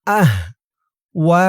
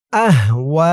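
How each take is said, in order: First: আহওয়া broken by a pause after আহ; split syllables. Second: আহওয়া in one go, last vowel held long; joined word. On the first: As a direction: say আহ, wait, then a long ওয়া. Teacher splits word in two. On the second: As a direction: run আহওয়া together into a drawn-out ending. Teacher recites word joined. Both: Shown as a demonstration.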